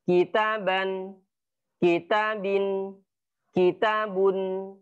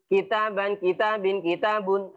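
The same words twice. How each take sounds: First: The three words are separated by clear pauses. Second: The three words run together without pauses. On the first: The speaker calls it right. "tetapi ada jeda" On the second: The speaker calls it wrong. "jangan dibaca uh, beruntun"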